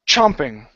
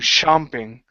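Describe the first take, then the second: First: It begins with a sharp, stopped ch sound. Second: It begins with a soft, continuous sh sound. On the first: The speaker calls it right. "your tongue has to be touching the top of your mouth. Ch, chomping, and it goes ch, and we push air through at one time" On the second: The speaker calls it wrong. "your tongue is down here, and you're saying shomping"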